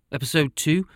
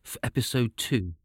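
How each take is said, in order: First: Two rising, lifted up; stress on two. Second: Said in the usual way. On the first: Shown as a demonstration. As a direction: lift the word two with a rise.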